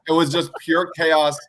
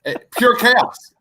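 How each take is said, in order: First: Said in the usual way. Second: High, drawn-out burst of delight; gleeful, slow emphasis; amused exclamation. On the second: Real, not acted. Laughing exclamation, then said plainly.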